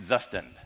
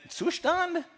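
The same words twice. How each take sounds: First: Zustand said "ZUH-stən" with a plain z, clipped at the end; American-style Zustand. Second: Zustand said "zoo-shtahnd" with a sh sound and a high start; German-style Zustand. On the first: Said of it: "Is it Zustand". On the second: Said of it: "or is it Zustand". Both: Shown as a demonstration.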